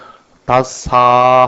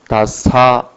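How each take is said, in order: First: The final vowel is drawn out long. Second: The final vowel is short. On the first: The speaker calls it wrong. "길게 해버린다 할 것 같으면 이는 발음이 틀리게 된다" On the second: The speaker calls it right. "마지막 사는 단음이기 때문에 짧게"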